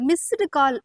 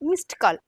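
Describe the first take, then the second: First: Missed ends with an added vowel after the t. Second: Missed ends with a bare t, no vowel. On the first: The speaker calls it wrong. "இத மிஸ்டு call அப்படின்னு சொல்லாம" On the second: The speaker calls it right.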